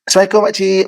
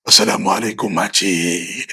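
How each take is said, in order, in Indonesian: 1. Sapaan itu terdengar hangat dan ramah. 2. Sapaan itu terdengar kasar dan menakutkan. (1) "Jadi orang akan nampak kita mesra" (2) "Takut makcik tu. Siapa ni kan?"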